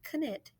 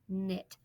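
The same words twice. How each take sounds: First: The K at the start is sounded. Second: The K at the start is silent. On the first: The speaker calls it wrong. "It's not knit" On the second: The speaker calls it right. "it is knit"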